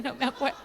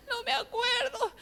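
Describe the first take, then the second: First: Said in the usual way. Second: High, slow whine with laughter; mock tearful wail. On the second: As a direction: wail it helplessly, half laughing. Repeats it as a comic wail.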